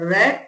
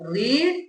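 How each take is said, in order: First: The vowel is a short 'e' sound. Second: The vowel is a long 'ee' sound. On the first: It is the past or past participle form. "റെഡ് എന്നാണ് നമ്മൾ ഇതിനെ pronounce ചെയ്യുക" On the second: It is the present form of the verb. "V one ഫോമിൽ നമ്മൾ അതിനെ റീഡ് എന്ന് വായിക്കും"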